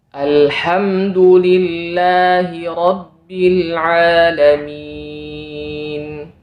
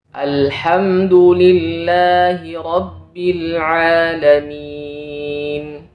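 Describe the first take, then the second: The two takes are said the same way.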